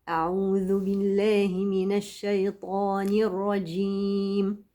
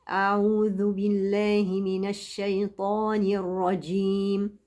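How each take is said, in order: The two takes are said the same way.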